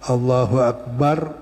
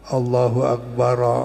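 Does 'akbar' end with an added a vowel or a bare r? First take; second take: bare r; added a. First: The final r of akbar has no vowel. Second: The final r of akbar carries an a vowel. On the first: "boleh disukunin roknya" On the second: "boleh juga dibaca patah"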